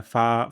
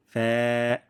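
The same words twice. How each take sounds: First: ফা with a full open aa vowel; wrong fa. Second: ফ্যা with a light, fronted ae vowel; thin fa. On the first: Teacher warning learners, broad Bengali-style ফা. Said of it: "যেন এমন না হয়". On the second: Teacher showing the correct letter, thin ফ্যা. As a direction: lip on upper teeth, thin held ফ্যা. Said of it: "পাতলা সাউন্ডে". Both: Shown as a demonstration.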